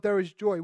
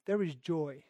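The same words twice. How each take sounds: First: Said in the usual way. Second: Lower, softer, hushed; soft solemn echo. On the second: Acted. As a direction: savor the words quietly. Repeating verse softly.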